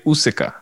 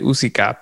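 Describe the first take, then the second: First: The name is said with an English pronunciation. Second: The name is said with a Spanish pronunciation. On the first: "if you're an English speaker, you could say Usica" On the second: "if you're a Spanish speaker, then you do say it Usica"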